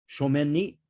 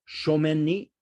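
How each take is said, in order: No difference in how they are said.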